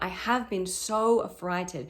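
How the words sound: The word 'so' carries the stress. The speaker calls it right. "you can also hit the word so"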